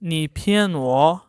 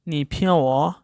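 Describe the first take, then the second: First: The n in pian is fully pronounced. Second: The n in pian is nearly silent. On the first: "आप ऐसे भी बोल सकते हैं" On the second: "native speaker एन को थोड़ा सा साइलेंट करके बोलते हैं"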